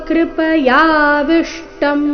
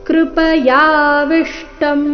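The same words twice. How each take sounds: The two takes are said the same way.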